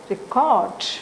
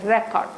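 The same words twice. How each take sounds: First: The stress is on the second syllable. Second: The stress is on the first syllable. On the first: "here it is a contracted sound" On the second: "as it is stressed. This E is produced as a"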